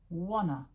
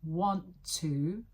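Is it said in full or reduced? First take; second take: reduced; full. First: The words are reduced to one word. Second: Both words are said in full.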